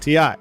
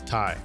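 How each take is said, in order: First: It is spelled out as two letters. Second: It is said as one word rhyming with 'eye'. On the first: The speaker calls it wrong. "If you say T I, you're saying it wrong" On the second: The speaker calls it right. "It is tie. So make sure you do it right"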